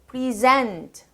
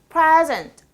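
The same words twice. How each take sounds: First: The stress is on the second syllable. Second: The stress is on the first syllable. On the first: It is a verb. "동사" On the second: It is a noun. "앞에"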